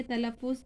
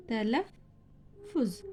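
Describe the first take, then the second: First: Said in the usual way. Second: तलफ़ुज़ drawn out very slowly, each syllable clear; slow model reading. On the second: Shown as a demonstration. Teacher models तलफ़ुज़ for students, very slow and clear. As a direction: stretch तलफ़ुज़ out slowly for the class. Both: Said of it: "पढ़िए जैसा तलफ़ुज़".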